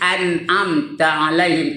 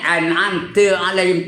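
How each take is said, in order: First: The 'ta' sound is light and unforced. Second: The 'ta' sound is forced and overemphasized. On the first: The speaker calls it right. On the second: The speaker calls it wrong. "nak betul sangat ... ta begini ... tak betul tu"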